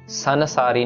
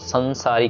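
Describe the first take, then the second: First: The first vowel is followed by a full n. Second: The first vowel is nasalized without a full n. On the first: The speaker calls it wrong. "संसारी नहीं कहना, नन्ना नहीं लगाना हमने" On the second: The speaker calls it right. "टिप्पी के साथ है, सो संसारी कहना है"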